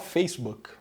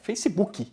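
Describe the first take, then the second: First: It is said with an English accent. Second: It is said with a Brazilian accent. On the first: This is not how Brazilians say it. "a gente não fala" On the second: This is how Brazilians say it. "a gente fala"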